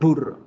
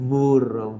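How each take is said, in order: First: The lips close fully and burst on the first sound. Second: Air passes through the lips on the first sound. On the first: "exploto los labios" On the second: "dejo que el aire pase y genere la vibración"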